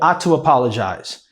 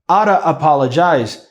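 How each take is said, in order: First: It is said in full, running into apologize. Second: It is reduced to oughta, with a pause after. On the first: The speaker calls it right. "Então eu falo you ought to apologize" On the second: The speaker calls it wrong. "Se eu falar oughta, oughta apologize, causa uma pausa ali"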